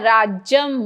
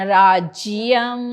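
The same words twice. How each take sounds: First: Only a plain j is heard, no y. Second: A clear y is heard after the j. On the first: The speaker calls it wrong. "राज्यम म्हटलं तर नुसता ज" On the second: The speaker calls it right. "जिय य दाखवायचं आहे"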